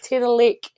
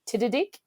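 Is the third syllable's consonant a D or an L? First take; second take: L; D. First: The third syllable starts with an l sound. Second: The third syllable starts with a d sound. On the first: The speaker calls it right. "it's Tiddalik" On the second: The speaker calls it wrong. "me with the tongue tongue twister, I went Tiddadick"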